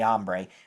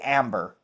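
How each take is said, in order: First: The name is said Spanish-style, like 'ombre'. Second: The name is said like English 'amber'. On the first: This is the word's real pronunciation. "even though it's really Ombre" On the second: This is the form Siri understands. "so we say Amber"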